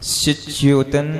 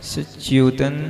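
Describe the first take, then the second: The two takes are said the same way.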